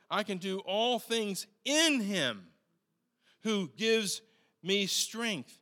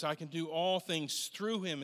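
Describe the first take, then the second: First: "in" stressed as the right word, replacing "through". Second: "through" as the word to correct, lightly weighted; stress on through. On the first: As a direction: lean on "in" to correct the verse. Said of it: "the Greek says". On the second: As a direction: set up "through" as the wrong word. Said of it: "it's not actually through". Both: Shown as a demonstration.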